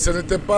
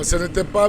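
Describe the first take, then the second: First: The negative 'ne' sound is clearly pronounced. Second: The same.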